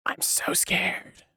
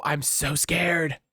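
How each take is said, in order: First: Breathy whisper of fake terror; hushed sarcastic whisper; whispered mock fear. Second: Said in the usual way. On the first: Shown as a demonstration. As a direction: whisper it, pretending to tremble.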